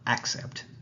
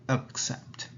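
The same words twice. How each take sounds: First: The first vowel is a full, open vowel. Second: The first vowel is a relaxed schwa. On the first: The speaker calls it wrong. "it's not accept" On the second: The speaker calls it right. "it's accept"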